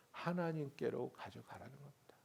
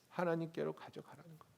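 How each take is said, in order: First: Breathy hushed whisper. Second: Said in the usual way. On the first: Shown as a demonstration. Preacher urging the congregation, hushed whisper. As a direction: whisper it as a secret. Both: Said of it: "whispered then repeated".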